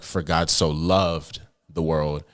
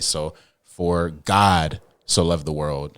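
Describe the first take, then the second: First: The word loved is stressed. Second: The word God is stressed.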